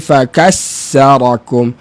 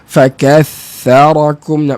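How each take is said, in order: First: The middle consonant is a hissing s sound. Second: The middle consonant is a soft th sound. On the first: The speaker calls it wrong. "Dia akan jadi fakassarakum" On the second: The speaker calls it right. "Nampak macam senang"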